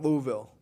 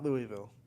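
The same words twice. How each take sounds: First: Louisville is said the local Southern way. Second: Louisville is said the outsider way. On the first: This is how people there want it said. "they want it Louisville" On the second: This is how people elsewhere say it. "not Louisville"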